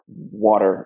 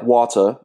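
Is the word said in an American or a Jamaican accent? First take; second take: American; Jamaican. First: It is said in an American accent. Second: It is said in a Jamaican accent. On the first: "instead of" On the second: "Jamaicans would say"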